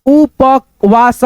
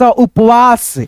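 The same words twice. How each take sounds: First: उपवास very slow, as उ-प-वास; drawn-out, separated उ, प, वास in उपवास; split into parts. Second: Said in the usual way. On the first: Shown as a demonstration. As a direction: sound out उपवास piece by piece. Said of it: "दो भागों में divide करके". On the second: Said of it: "उसके बाद से बोल देते हैं".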